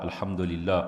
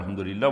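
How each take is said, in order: First: It is said slowly and calmly. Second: It is said quickly and hurriedly.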